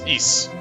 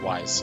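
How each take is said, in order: First: It begins with a vowel, like 'east'. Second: It begins with a W sound, like 'wise'. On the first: The speaker calls it right. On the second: The speaker calls it wrong. "not Wise"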